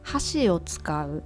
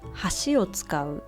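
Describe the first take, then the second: First: Hashi carries the pitch accent of chopsticks. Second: Hashi carries the pitch accent of bridge. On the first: Use chopsticks. "The first one I think it's easy. Chopstick" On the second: Use the bridge. "And the third one is bridge"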